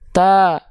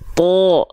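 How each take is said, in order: First: The syllable sounds thin, with a clear a. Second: The syllable sounds thick, with an o-like vowel. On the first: "Kalau nggak diangkat" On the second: "sekarang angkat pangkal lidahnya"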